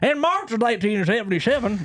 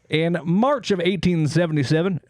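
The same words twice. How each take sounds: First: It is said in a put-on character voice. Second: It is said in his normal voice.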